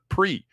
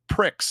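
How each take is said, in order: First: The word ends in a vowel, no ks sound. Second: The word ends with a ks sound. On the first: "if you want us to call it pre" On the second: "Don't spell it pricks"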